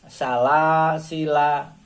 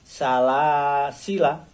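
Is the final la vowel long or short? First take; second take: long; short. First: The final la vowel is drawn out long. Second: The final la vowel is kept short. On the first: The speaker calls it wrong. "Kalau tulisan aslinya" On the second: The speaker calls it right. "Lamnya yang akhir tidak dibaca panjang"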